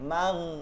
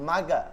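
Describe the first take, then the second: First: It ends on the held consonant, no vowel. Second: A vowel sound follows the final consonant. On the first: The speaker calls it right. "মাগ মানে ধরবে শুধু" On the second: The speaker calls it wrong. "মাগা এরকম উচ্চারণ করা যাবে না।"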